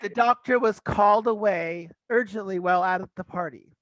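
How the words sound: It is said in an American accent. "pronounce it as you would, teach teacher Grant in in America"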